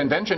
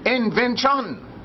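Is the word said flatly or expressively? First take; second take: flatly; expressively. First: The word is said flatly, without energy. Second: The word is said expressively, with full energy.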